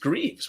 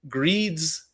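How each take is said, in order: First: The name ends with a V sound. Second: The name ends with a D sound. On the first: The speaker calls it right. "no, it's it's Greaves" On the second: The speaker calls it wrong. "like with a D"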